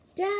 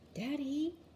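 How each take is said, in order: First: It is yelled as loud as possible. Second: It is said very quietly.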